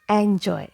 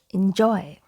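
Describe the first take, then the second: First: The first vowel sounds like 'e' in 'elephant'. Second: The first vowel sounds like 'i' in 'in'. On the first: The speaker calls it wrong. "It's not a sound like we have in elephant" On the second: The speaker calls it right. "letter E has I sound like we have in in"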